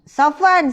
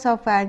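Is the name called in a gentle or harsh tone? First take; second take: harsh; gentle. First: The name is called sharply and sternly. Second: The name is called softly and warmly. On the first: Something bad is coming and the listener feels afraid. The speaker calls it wrong. "Dia dengar cara nama dia dipanggil dan nada suara tu" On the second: The speaker is affectionate and the listener feels calm. The speaker calls it right. "kalau kita jaga nada suara"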